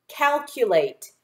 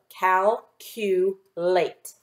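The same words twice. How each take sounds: First: Said in the usual way. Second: Very slow "Calculate" split into its parts; slow syllable by syllable. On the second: Shown as a demonstration. Teacher sounds out the word slowly for the class. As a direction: stretch each syllable before blending. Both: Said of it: "Put those three syllables together".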